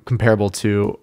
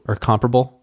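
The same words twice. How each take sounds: First: "comparable" said as com-PAIR-able; stress on second syllable. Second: "comparable" said as COM-pruh-bul; stress on first syllable. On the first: Host offers one option, "comparable" as com-PAIR-able. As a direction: put the weight on PAIR in "comparable". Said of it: "I said it. I said them both". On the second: Host offers the other option, "comparable" as COM-pruh-bul. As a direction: put the weight on COM in "comparable". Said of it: "I said them both". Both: Shown as a demonstration.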